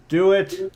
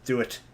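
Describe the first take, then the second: First: Excited urging. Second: Said in the usual way. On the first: Real, not acted. Urging friend to show drawing.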